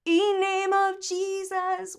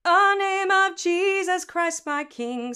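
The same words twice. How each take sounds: First: Slow, high sung "E name of Jesus"; wrong E onset. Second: Slow, loud sung "A name of Jesus"; A vowel onset. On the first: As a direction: open on a bare E vowel. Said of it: "We're not gonna go". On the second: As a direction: start on an "uh" with almost no T H. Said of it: "Same way we say A". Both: Shown as a demonstration.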